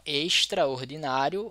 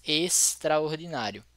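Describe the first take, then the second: First: Extraordinário with "sh" before the t; regional hushed s. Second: Extraordinário with a clean, drawn-out s before the t; plain hissed s. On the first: Teacher showing how some people say it, hushed s. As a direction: say extraordinário as "eishtraordinário". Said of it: "Algumas pessoas falam". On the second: Teacher contrasting how others say it, plain s. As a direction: say extraordinário slowly as "esstraordinário". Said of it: "outras extraordinário". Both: Shown as a demonstration.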